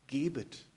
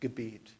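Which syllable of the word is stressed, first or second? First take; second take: first; second. First: The stress is on the first syllable. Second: The stress is on the second syllable. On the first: It is a command to give something away. "Man kann es ja auch gebet betonen" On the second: It names the act of prayer. "anstatt Gebet"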